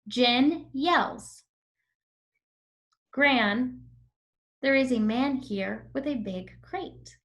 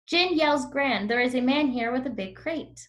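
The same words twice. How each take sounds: First: Short pauses break up the sentence. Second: The sentence runs on without pauses. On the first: The speaker calls it right. "Do you see how I paused whenever there was a comma?" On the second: The speaker calls it wrong. "Now I'm going to read it without using the comma"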